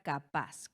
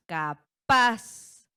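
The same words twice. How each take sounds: First: Said in the usual way. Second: "Capaz" with PAZ punched much louder and higher; teacher showing the stressed PAZ in "Capaz", loud and drawn out; stress on last syllable. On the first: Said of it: "Nuestra sílaba tónica recae en paz". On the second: Shown as a demonstration. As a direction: split "Capaz" as ca-PAZ, hammering the final syllable. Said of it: "sílaba tónica recae en paz en la última sílaba".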